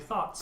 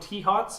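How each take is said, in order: First: It starts with a th sound. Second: It starts with a spelled-out T, then 'hots'. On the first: The speaker calls it right. "the correct pronunciation is apparently thoughts" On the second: The speaker calls it wrong. "I called them T-hots"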